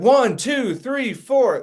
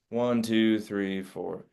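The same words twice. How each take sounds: First: It is said with lively emotional energy. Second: It is said flatly, without emotion.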